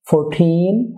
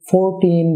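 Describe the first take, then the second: First: The stress is on the second syllable. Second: The stress is on the first syllable. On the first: The speaker calls it right. "ঠিন সিলেবলটি louder এবং লঙ্গার হবে" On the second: The speaker calls it wrong. "এভাবে নয়"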